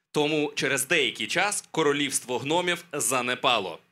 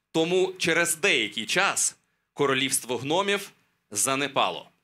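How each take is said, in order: The two takes are said the same way.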